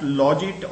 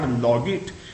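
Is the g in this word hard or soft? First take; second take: soft; hard. First: The g is pronounced soft, like j. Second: The g is pronounced hard, like in go. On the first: "this soft Logit" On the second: "or if hard Logit"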